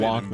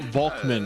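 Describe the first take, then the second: First: The word begins with a W sound. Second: The word begins with a V sound. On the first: "instead of" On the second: "if you pronounce W in German ... with a German pronunciation, it will be pronounced"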